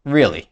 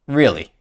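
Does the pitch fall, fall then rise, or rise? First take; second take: fall; fall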